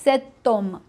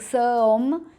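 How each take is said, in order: First: A t sound links the two words. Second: The two words are said without a linking t. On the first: The speaker calls it right. "we add this t just to make the liaison" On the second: The speaker calls it wrong. "it sounds a bit odd"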